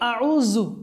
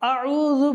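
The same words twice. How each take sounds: First: The middle consonant is a 'z' sound. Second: The middle consonant is a soft 'dh' sound. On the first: The speaker calls it wrong. "জাল এর জায়গায় জা পড়ে ফেলি, তাহলে এটাও একটা ভুল।" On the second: The speaker calls it right. "আবার পড়ি"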